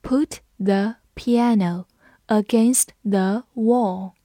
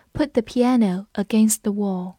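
First: Slow, each word set apart; slow read-along. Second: Said in the usual way. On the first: Shown as a demonstration. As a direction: lead learners through it slowly. (放慢速度，一词一顿地领读) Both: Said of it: "跟着我慢读一遍".

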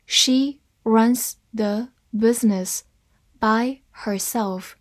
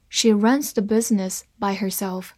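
First: Slow, word by word; deliberate teaching pace with gaps between words; slow reading. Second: Said in the usual way. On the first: Shown as a demonstration. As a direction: separate each word clearly. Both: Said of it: "慢慢来读".

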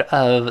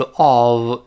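First: "of" short and unstressed; weak form. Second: "of" long, with a full vowel; stressed form. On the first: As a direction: say "of" lightly with a reduced vowel. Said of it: "轻读是of". (“of”轻读，元音弱化) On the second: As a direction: draw out "of" in its strong form. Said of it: "重读是of". (“of”重读，元音拉长) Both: Shown as a demonstration.

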